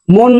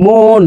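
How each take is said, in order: First: Said in the usual way. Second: মন drawn out as "mooon"; hidden vowel shown. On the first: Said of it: "মন না, মন". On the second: Shown as a demonstration. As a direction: stretch the o inside মন. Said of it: "একটা অর উচ্চারণটা লুকাই আছে".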